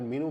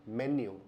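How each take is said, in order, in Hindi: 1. इसे mee-noo की तरह बोला जाता है। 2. इसे men-yoo की तरह बोला जाता है। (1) "तो वो भी सही उच्चारण नहीं है" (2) "इसको बोलते हैं मेन्यू"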